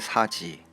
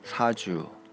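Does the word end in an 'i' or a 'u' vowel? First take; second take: i; u. First: It is said in standard Korean, ending in 'i'. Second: It is said in Jeju dialect, ending in 'u'. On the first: "표준어의 사지" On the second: "이를 우로 소리내는 경향"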